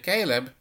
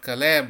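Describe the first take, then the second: First: The name is said with an English pronunciation. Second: The name is said with a Hebrew pronunciation.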